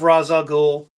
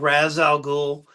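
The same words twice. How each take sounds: First: The name is said in a neutral accent. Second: The name is said in a Southern redneck accent.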